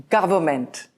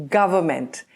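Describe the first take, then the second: No difference in how they are said.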